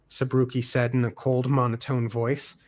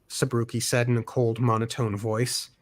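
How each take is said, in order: Both takes have the same delivery.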